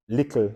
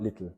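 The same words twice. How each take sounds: First: "Little" said "likl", k for the t; Jamaican Creole "little". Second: Said in the usual way. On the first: Shown as a demonstration. Teacher summing up for students, "Little" as "likl". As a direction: put a back k before the L in "Little". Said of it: "variation in pronunciation". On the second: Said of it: "not little".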